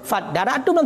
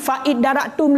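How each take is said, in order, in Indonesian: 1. 'Fa' langsung menyambung ke 'daratum'. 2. Vokal 'i' diucapkan sebelum 'daratum'. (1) "karena buno kam sambungan fa maka ukun fa daratum langsung" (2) "Makanya ukun hanakun fa idaratum le"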